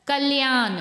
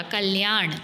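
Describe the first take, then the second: First: कल्याण said as "kalyaan"; न ending. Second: कल्याण said lower as "kalyaaṇ"; ण ending. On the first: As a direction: end कल्याण on dental n. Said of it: "न नहीं आएगा". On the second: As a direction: curl the tongue on the last sound of कल्याण. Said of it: "ण आएगा". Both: Shown as a demonstration.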